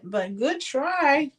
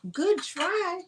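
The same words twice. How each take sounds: First: Said in the usual way. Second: Much higher playful sing-song. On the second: Real, not acted. Seller teasing herself over the failed lid fit, high and sing-song.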